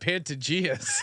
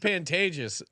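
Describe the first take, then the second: First: The name ends with an extra 'as' syllable. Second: The name ends without an extra final syllable. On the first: The speaker calls it wrong. "C J called it the Pantageas" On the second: The speaker calls it right. "it's called Pantages"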